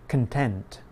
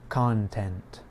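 First: The stress is on the second syllable. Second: The stress is on the first syllable. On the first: It is the adjective meaning happy. "The stress is on the second part of the word. The unstressed syllable has the reduced vowel sound, the schwa" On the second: It is the noun meaning subject matter. "In the word content, the stress is on the first part of the word"

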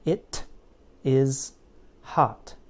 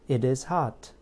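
First: Each word is said separately with a clear T. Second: The words are linked with a fast D sound. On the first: "If I say each word individually, it sounds like this" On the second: "when I build the bridge, the fast D sound between words, it sounds like this"

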